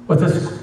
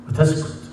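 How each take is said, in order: No difference in how they are said.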